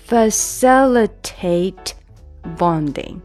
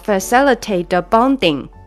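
First: The t of facilitate is held and not released. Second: An extra sound follows the t of facilitate. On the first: The speaker calls it right. "一定是facilitate bonding。这个tate 的这个t 是没有出来的" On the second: The speaker calls it wrong. "一定不能变成facilitate bonding，你这个变成多了一个音出来了"

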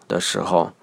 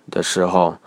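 The two takes are said the same way.

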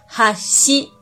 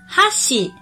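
First: The first syllable is low, the second high. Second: The first syllable is high, the second low. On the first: It means bridge. "如果第一拍低，第二拍高的话，这时候就要念哈西" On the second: It means chopsticks. "如果第一拍高，第二拍低，就念哈西"

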